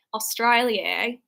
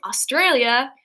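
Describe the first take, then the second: First: Slow, drawn-out mock Australian; botched Australian accent; attempted Australian accent. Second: Said in the usual way. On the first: Shown as a demonstration. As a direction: try a bad Australian accent, stretching "Australia". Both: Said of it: "I can't do an Australian accent".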